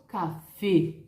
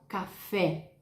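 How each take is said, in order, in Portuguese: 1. O E final é uma vogal fechada. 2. O E final é uma vogal aberta. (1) "Eu hablo café. La E é mais cerrada em espanhol" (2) "Em português eu falo café, aberto"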